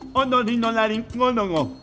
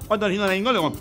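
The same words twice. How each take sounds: First: The word is said at normal speed. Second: The word is said quickly.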